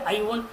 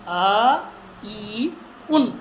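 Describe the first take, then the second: First: The syllables are run together without breaks. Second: Each syllable is said separately with breaks. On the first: The speaker calls it wrong. "हम बोलते आई उन" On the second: The speaker calls it right. "आई उन नहीं"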